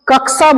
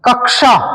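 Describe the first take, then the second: First: The cluster is not a clear k plus sh. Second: The cluster is a clear k plus sh. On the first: The speaker calls it wrong. "कक्षा बोलते हैं, कक्षा नहीं होगा" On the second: The speaker calls it right. "का और श मिलके क्ष"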